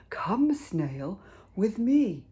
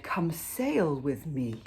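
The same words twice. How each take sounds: First: Rising to higher and louder on me; whale's invitation. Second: Slow, with sail stressed and falling; corrected line. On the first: Acted. Whale inviting the snail aboard, rising and brighter. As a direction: call the snail over, brightening at the end. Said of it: "he said to the snail". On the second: Shown as a demonstration. Narrator correcting the whale's words, slow with sail stressed. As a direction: lean on sail, unhurried. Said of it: "Actually, he said".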